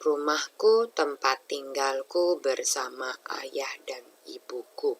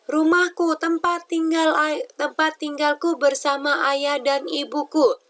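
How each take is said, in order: First: It is read in a low, quiet voice. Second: It is read in a high, loud voice. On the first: "Tidak hanya rendah saja" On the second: "Atau terlalu tinggi"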